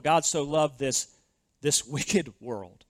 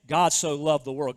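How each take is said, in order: First: Slow, dropping voice on "this wicked world", leaning on "wicked"; slow right down and weigh "wicked"; stress on wicked. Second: Said in the usual way. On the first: Shown as a demonstration. Preacher rereads the verse, slowing down hard on "wicked world". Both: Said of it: "So that statement".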